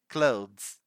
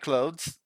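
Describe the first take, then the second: First: A voiced th sound comes before the final s. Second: It sounds like close, with no th sound. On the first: "You need to produce that sound of the voice TH and say clothes" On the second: "You can pronounce like clothes"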